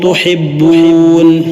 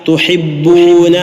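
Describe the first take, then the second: First: The word ends on the consonant n. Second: The word ends with a short final vowel.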